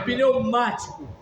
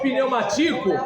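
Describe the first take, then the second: First: The stress is on the second syllable. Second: The stress is on the third syllable. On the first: The speaker calls it right. "é pneumático... ela é proparoxítona" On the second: The speaker calls it wrong. "se fosse pneumatico, aí seria paroxítona"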